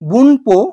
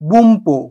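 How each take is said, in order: First: It is said with an n before 'po'. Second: It is said with an m before 'po'. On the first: The speaker calls it wrong. "আমি লিখেছি বুনপো" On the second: The speaker calls it right. "কিন্তু উচ্চারণ হবে"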